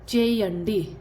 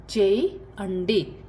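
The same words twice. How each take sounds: First: Said in the usual way. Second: चेयंडी stretched out very slowly; very slow repeat. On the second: Shown as a demonstration. Teacher repeats Telugu for do very slowly. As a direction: drag चेयंडी out for learners. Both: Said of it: "कुछ करना है".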